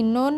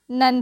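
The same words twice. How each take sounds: First: नोन with a long o, like "nohn"; wrong spelling pronunciation. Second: Said in the usual way. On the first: Shown as a demonstration. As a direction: read "none" wrongly as नोन, with an o. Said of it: "नोन नहीं पढ़ते हैं". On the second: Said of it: "नन पढ़ते हैं".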